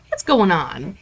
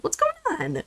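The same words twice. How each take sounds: First: Said in the usual way. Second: High, soft cooing pet voice. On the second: Real, not acted. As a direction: coo it at the kitty. Cooing at cat, then plain.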